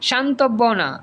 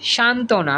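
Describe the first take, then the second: First: A 'b' sound is heard after the 't'. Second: No 'b' sound is heard after the 't'. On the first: The speaker calls it wrong. "আমরা কিন্তু বলি না যে শান্তব্য না" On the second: The speaker calls it right. "এমনি বলি শান্তনা বলি"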